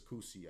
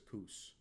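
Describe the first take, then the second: First: The name is said with two syllables. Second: The name is said with one syllable. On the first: The speaker calls it wrong. "I don't think it's Koosie" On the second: The speaker calls it right. "I think it's Coos"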